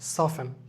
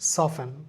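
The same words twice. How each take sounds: The two takes are said the same way.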